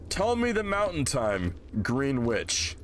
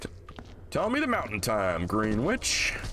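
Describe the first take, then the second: First: The phrase is spoken in a plain voice. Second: The phrase is spoken with a put-on accent.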